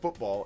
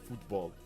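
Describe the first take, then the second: First: It is said the American English way. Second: It is said as 'futbol'. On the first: The sport meant is American football. "I say football like American football" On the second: The sport meant is soccer. "F U T B O L, football"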